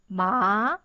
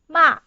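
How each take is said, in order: First: The pitch rises from middle to high. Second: The pitch falls sharply from high to low. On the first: "you should go up and pronounce ma" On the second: "it's from the top for, to the bottom"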